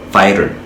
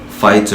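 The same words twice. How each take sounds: First: It has an American accent with a D-like T. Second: It has a British accent with a clear T. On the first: "mais à l'américaine, on dira fighter" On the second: "au britannique"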